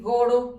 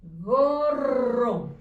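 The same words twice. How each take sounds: First: "goro" said with a single tapped r, not rolled; wrong spelling read aloud. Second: "Gorro" with a strong rolled double rr; correct double r. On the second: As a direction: roll the rr clearly in "Gorro". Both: Shown as a demonstration. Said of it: "Si le ponen una r".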